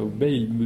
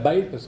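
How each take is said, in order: First: The name is said with a standard French pronunciation. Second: The name is said with a regional Ariège pronunciation. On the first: "on peut dire Bayle" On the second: "je prononce à la Bayle, à l'ariégeoise"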